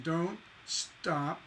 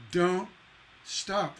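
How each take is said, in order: First: Said in the usual way. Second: "Don't" then a long pause, then "stop"; pause between words. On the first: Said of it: "Nice, clean repetition". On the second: Shown as a demonstration. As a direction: hold a pause after "Don't" before "stop". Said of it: "Those pauses".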